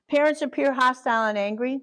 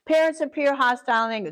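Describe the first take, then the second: First: "Parents" hit, then the tune rises at the end; stressing PARENTS. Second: "Parents" hit hard, falling at the end; stressing PARENTS. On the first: Teacher reading the list again, with a rising tune. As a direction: lift "Parents appear hostile and angry" like a question. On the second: Teacher reading the list to the class, stressing "Parents". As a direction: punch "Parents" as a dry statement. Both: Shown as a demonstration. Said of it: "That's how I teach it".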